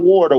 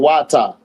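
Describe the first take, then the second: First: It is said in a plain American accent. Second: It is said like 'wata' in a Jamaican-style accent. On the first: The speaker calls it wrong. "not water" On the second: The speaker calls it right. "like the Jamaicans"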